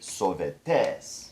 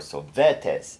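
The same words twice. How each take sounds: First: The last syllable is pushed and stressed. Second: The last syllable is not stressed. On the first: The speaker calls it right. "we're going to actually push that last syllable" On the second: The speaker calls it wrong. "or sovetes"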